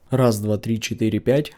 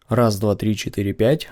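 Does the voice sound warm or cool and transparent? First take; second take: warm; cool. First: The voice sounds warm, neutral and balanced. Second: The voice sounds cooler, transparent and analytical. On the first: "звучит мой голос с микрофоном Takstar эс эм девять, без обработок, но уже с поп-фильтром" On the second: "как звучит мой голос с микрофоном Takstar эс эм десять, без обработок, но уже с поп-фильтром"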